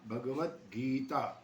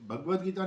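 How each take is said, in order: First: The 'ga' is said fully with its vowel. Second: The 'ga' is clipped without its vowel. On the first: The speaker calls it right. "भग ग पूरा बोलेंगे" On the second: The speaker calls it wrong. "नहीं"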